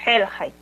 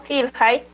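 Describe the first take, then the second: First: HELHAI with an E in the first syllable; I opened to E. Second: GILHAI with an I in the first syllable; said as written. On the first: Teacher showing the real pronunciation, HELHAI with E. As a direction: open the first vowel of HELHAI to E after the throat consonant. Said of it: "la pronunciación es". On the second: Teacher reading the spelling to learners, GILHAI with I. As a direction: keep a plain I in GILHAI. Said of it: "se escribe como". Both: Shown as a demonstration.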